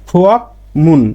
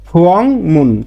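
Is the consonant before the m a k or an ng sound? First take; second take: k; ng. First: A k sound comes before the m. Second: An ng sound comes before the m. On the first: The speaker calls it wrong. "সাধারণ নিয়মে আর উচ্চারণটা কি ফুয়াকমুন" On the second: The speaker calls it right. "উচ্চারণটা হবে কি ফুয়াংমুন"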